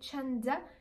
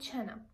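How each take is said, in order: First: The d sound in the middle is pronounced. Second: The d sound in the middle is dropped. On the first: "instead of saying chanda" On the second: "we are dropping these sounds"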